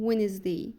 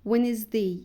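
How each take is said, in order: No difference in how they are said.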